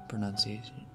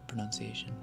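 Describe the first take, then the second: The two takes are said the same way.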